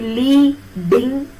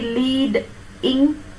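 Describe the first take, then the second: First: The syllable break falls before the d sound. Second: The syllable break falls after the d sound. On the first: "the syllabic division comes after e" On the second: "the syllabic division comes after d"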